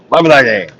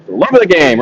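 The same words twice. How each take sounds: First: Slips into a pirate voice. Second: Said in the usual way. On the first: Real, not acted. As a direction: growl it like a pirate. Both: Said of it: "I sounded like a pirate when I said that".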